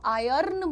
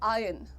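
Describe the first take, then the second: First: The 'r' sound is clearly pronounced. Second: The 'r' sound is dropped. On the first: The speaker calls it wrong. "आयर्न मत बोलो" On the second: The speaker calls it right. "आर को दबा दो"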